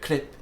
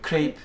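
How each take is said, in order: First: It is pronounced the French way. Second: It is pronounced in a non-French way. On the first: The speaker calls it right. "they go crepe" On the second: The speaker calls it wrong. "French people don't go crepe"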